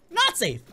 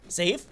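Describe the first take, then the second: First: "Not safe" starting high, dropping sharply; high falling "Not safe". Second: "Safe" low with a quick rise; low questioning "Safe". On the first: Player stepping out of the safe area, high falling "Not safe". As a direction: pitch "Not" high, let "safe" plunge. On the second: Player stepping into the safe area, low rising "Safe". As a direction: say "Safe" low, tipping up at the end. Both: Pretend.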